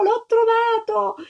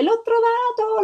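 First: High cry, slow and drawn out; joyful shout. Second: Put-on high, bright cry of a thrilled little girl; shouting with joy. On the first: Little girl repeating her find to the crowd, slow joyful cry. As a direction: stretch out the cry, overjoyed. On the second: Little girl crying out to everyone over her egg, overjoyed. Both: A narrator's reading. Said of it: "si mise a gridare".

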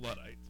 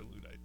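First: "Luddites" with a short u, LUD-ites. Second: "Luddites" with a long oo, LOO-dites. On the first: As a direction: say "Luddites" starting like "love". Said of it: "I call 'em Luddites". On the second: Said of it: "but it's probably Luddites". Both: Shown as a demonstration.

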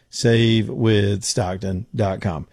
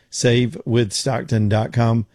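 Both takes have the same delivery.

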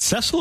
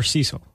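First: "Cecil" rhyming with "wrestle"; short-e pronunciation. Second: "Cecil" opening like "see"; long-e pronunciation. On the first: Host checking which way the name goes, "Cecil" as SESS-il. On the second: Host offering the other way to say the name, "Cecil" as SEE-sil. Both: Shown as a demonstration. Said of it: "Is it Cecil or Cecil".

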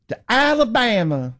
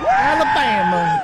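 First: To Alabama drawled high, mock Southern; mock Forrest Gump drawl. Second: Alabama drawled high and slow, mock Southern; mock Southern accent. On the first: Host parodying AOC's accent, sounding like Forrest Gump, mock Southern. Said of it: "She sounds like Forrest Gump". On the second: Host mocking AOC, echoing her Alabama in mock Southern drawl. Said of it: "mocking AOC accent on Alabama".

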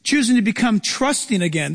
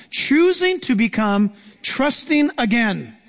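First: Said in the usual way. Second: "Choosing to become trusting again" said slowly, weight on "Choosing"; slow emphatic repeat. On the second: Shown as a demonstration. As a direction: lean hard into "Choosing" and stretch the whole line. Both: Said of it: "This is the biggie".

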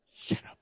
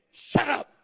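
First: Unvoiced, low-key order; hushed command. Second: Forceful, sharp command to a devil; blunt rebuke. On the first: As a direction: dismiss the devil under your breath. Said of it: "you need to just tell the devil". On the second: Acted. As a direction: silence it with one hard burst. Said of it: "we would say".

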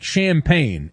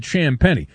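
First: "champagne" said like the drink; "champagne" ending in a plain "pain"; pronounced as spelled. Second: "Champagnie" said sham-PENNY; three-syllable "Champagnie", ending in "ee"; name's actual pronunciation. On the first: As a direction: say "champagne" as sham-PAIN, two syllables. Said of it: "spelled like champagne". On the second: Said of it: "you pronounce it Champagnie". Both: Shown as a demonstration.

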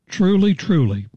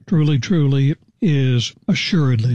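First: "Truly, truly" lifted high and pressed hard on each word; emphatic truly. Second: Said in the usual way. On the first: Acted. Jesus insisting to Nicodemus, emphatic raised "Truly, truly". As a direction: land both "Truly" words high and insistent. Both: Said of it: "It's very emphatic".

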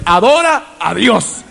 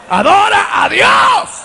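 First: Said in the usual way. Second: High, slow, shouted call; shouted climax. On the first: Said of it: "adora a Dios (repeated, building)". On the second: Real, not acted. Preacher urging the church to worship God, high shout. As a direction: peak of the repeated call. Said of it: "repeated, building to a shout".

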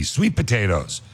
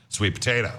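First: SWEET potatoes, weight on sweet; stress on SWEET. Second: Sweet POTATO, weight on potato, softer overall; stress on POTATO. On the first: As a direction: hit "Sweet" and let "potatoes" fall away. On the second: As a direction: keep "Sweet" light and lean into "potato". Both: Shown as a demonstration. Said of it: "emphasize a different part of the word".

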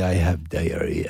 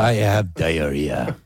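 First: Put-on slow, softer French-accented line; romantic French accent. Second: Put-on slow, drawn-out French accent. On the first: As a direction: croon it like a French lover. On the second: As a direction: echo the player in a French accent. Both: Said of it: "it's so romantic, the language".

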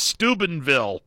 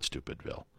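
First: Steubenville said properly, STOO-ben-ville; correct pronunciation. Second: Stupidville, said as a deliberate joke name for the town; joking mispronunciation. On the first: Host setting the town name straight, correct pronunciation. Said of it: "No, no, it's Steubenville". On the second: Host teasing the Steubenville listeners, jokey mispronunciation. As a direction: toss off Stupidville as a mock slip. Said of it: "love it when I say Stupidville". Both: Shown as a demonstration.

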